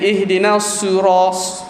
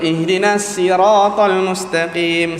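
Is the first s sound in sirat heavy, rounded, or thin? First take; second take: rounded; thin. First: The s is rounded so much it sounds like su. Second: The s sounds thin, like a plain s. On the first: "muncul sangat dia jadi ihdinas suras, su bunyi su" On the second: "si jadi sin"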